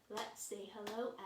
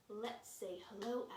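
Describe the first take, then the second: The two takes are said the same way.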